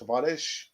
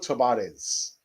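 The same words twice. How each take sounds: First: The name is pronounced the Portuguese way. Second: The name is pronounced the Spanish way. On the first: "or the Portuguese pronunciation, I think it's Tavares" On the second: "I'll far rather go for the Spanish uh, pronunciation"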